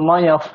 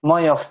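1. শব্দটি শেষে একটি 'f' ধ্বনি দিয়ে শেষ হয়। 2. শব্দটি শেষে একটি 'f' ধ্বনি দিয়ে শেষ হয়।

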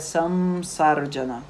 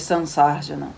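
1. A nasal antes do S soa como M. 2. A nasal antes do S soa como N. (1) "a pronúncia mais adequada seria Samsarjana" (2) "Em vez de Sansarjana"

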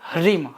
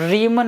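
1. શબ્દ "r" પહેલાં "h" થી શરૂ થાય છે. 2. શબ્દ સાદા "r" અવાજથી શરૂ થાય છે. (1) "હ અડધો ર આવશે" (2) "રીમ નથી"

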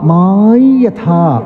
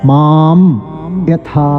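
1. ഈ നാസൽ ശബ്ദം നാസലൈസ്ഡ് y ആയി ഉച്ചരിക്കുന്നു. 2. ഈ നാസൽ ശബ്ദം സാധാരണ m ആയി ഉച്ചരിക്കുന്നു. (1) "വൈദികമായ രീതിയിൽ ചൊല്ലുമ്പോൾ ഇവിടെ മായി യഥാ" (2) "അങ്ങനെ തന്നെ ഉച്ചരിച്ചാലും തെറ്റില്ല"

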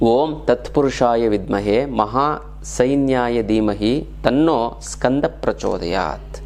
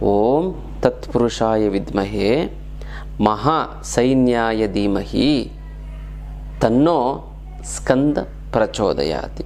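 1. ಮಂತ್ರವನ್ನು ಸಾಮಾನ್ಯ ವೇಗದಲ್ಲಿ ಹೇಳಲಾಗಿದೆ. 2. ಮಂತ್ರವನ್ನು ನಿಧಾನವಾಗಿ ಹೇಳಲಾಗಿದೆ.

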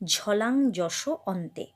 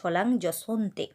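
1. শেষের দুটো শব্দ আলাদাভাবে উচ্চারিত হয়। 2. শেষের দুটো শব্দ জুড়ে একটি শব্দের মতো উচ্চারিত হয়।

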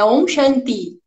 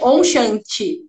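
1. O ti em shanti tem um t simples. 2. O ti em shanti soa como chee. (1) "é om shanti" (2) "ninguém vai falar om shanti"

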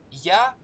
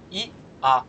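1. Он произносится как один слитный слог. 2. Он разбивается на два отдельных гласных. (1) "можно сказать «я»" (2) "а можно сказать «и-а»"

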